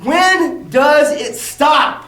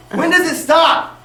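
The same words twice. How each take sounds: First: Very slow, stretched, stress on when; exasperated, dragged-out repeat; drawn-out plea. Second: Slow, stress on does, rising; measured outraged question, does rising; pleading question. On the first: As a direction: drag every word of it out, when lifted. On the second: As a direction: ask it slowly, leaning on does. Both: Real, not acted. Repeated outraged rhetorical question.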